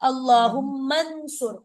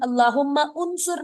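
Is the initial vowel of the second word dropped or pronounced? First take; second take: dropped; pronounced. First: The m links directly into n, vowel dropped. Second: The second word's initial vowel is pronounced separately. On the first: The speaker calls it right. "हम मीम को नून के साथ मिला देते हैं" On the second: The speaker calls it wrong. "अल्लाहुम्मा उनसुर नहीं कहेंगे"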